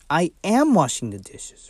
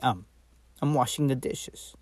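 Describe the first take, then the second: First: It says 'I am', stressing 'am'. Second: It says 'I'm', with no special stress. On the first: The speaker is already doing it. "you put more stress, more emphasis on am" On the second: The speaker is simply saying what they are doing. "the contraction is used most of the time when you're just speaking"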